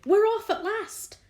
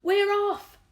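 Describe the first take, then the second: First: High, loud joyful cry; excited shout. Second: High, loud cry of joy; excited shout. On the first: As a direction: cheer it out at last. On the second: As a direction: yell it in triumph. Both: A narrator's reading. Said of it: "someone was shouting".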